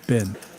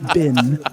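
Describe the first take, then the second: First: The vowel is a plain, unexaggerated E. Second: The vowel is pushed toward an I. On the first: The speaker calls it right. "It's Ben" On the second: The speaker calls it wrong. "don't overemphasize the I either"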